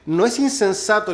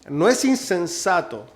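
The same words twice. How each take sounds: First: It is said at a normal, quicker pace. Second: It is said more slowly and deliberately.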